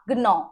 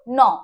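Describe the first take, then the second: First: The word begins with a sounded g. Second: The word begins with n, g silent. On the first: The speaker calls it wrong. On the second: The speaker calls it right.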